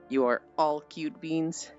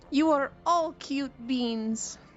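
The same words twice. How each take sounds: First: It is said in her own normal voice. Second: It is said in a Space Fish impression.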